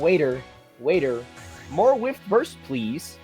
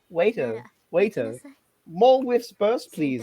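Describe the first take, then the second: First: It is spoken in the speaker's usual accent. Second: It is spoken in a put-on British accent.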